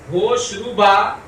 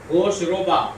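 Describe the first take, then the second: First: روبا said ruba with a long pure u, very slow; روبا with u, not o; correct pronunciation. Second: روبا said roba with an o vowel, softer; روبا with o as in Urdu bola; mistaken pronunciation. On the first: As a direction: stretch out ہوش روبا as hosh ruba. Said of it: "مجہول معروف سمجھ میں آیا؟". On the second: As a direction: mimic the common roba for روبا. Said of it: "جو آپ بار بار ہوش روبا پڑھ رہے تھے". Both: Shown as a demonstration.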